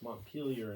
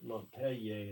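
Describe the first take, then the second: First: The name is said with English pronunciation. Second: The name is said with French pronunciation. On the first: "it's Montpelier in English" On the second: "they pronounce it Montpellier in French"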